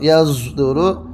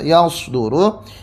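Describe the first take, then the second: First: The middle consonant is blended between s and z. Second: The middle consonant is a plain emphatic s. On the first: "antara shad dan za diismamkan" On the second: "Yang pertama dibaca shad seperti biasa"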